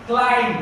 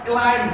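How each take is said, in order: Both takes have the same delivery.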